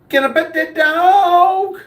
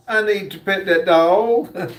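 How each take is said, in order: First: High, slow begging voice; squeaky mock plea to pet the dog; pleading high voice. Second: Said in the usual way. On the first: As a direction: beg like an eager kid wanting to pet the dog. Reading a dog-lover's chat comment.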